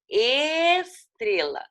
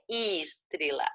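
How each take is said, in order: First: The word is said slowly and carefully. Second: The word is said quickly and hurriedly. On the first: The speaker calls it right. "é estrela" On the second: The speaker calls it wrong. "fala muito rápido e fala estrela. Não é estrela"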